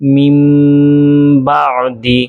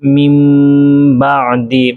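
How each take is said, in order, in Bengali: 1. 'b'-এর আগে একটি নাসিকাযুক্ত 'm' ধ্বনি আসে। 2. 'b'-এর আগে একটি নাসিকাযুক্ত 'm' ধ্বনি আসে।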